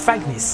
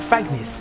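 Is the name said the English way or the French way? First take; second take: English; English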